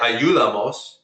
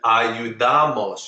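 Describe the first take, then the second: First: The stress falls away from the second-to-last syllable. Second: The stress falls on the second-to-last syllable. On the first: The speaker calls it wrong. "I didn't say ayudamos" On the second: The speaker calls it right. "You put the stress on the second to last syllable"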